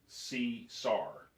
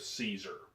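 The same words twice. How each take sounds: First: The name is pronounced like 'see-sar'. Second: The name is pronounced the standard English way. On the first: "was S E E S A R" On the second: "instead of"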